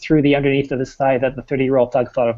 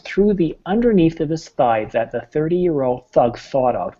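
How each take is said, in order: First: It is said at a fast, rushed pace. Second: It is said at a slow, careful pace. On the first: "Listen to what happens when I go fast" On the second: "we start them slowly"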